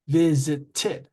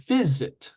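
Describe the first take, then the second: First: "visited" split so the final "ted" stands out; three-syllable demo. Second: Said in the usual way. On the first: Shown as a demonstration. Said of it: "three syllables". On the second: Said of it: "two syllables".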